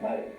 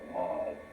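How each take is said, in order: First: The vowel is cut short. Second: The vowel is held long. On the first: The word means a horse. "short vowel" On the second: The word means speech or language. "long vowel, long vowel"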